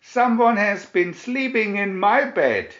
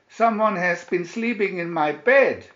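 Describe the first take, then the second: First: Much louder, higher, thundered; Papa Bear booming about his bed; thundering Papa Bear. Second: Higher and louder indignant cry; Mama Bear dismayed at her messy bed. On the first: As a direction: thunder it like an angry father bear. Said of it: "he thundered". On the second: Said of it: "cried Mama Bear". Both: A narrator's reading.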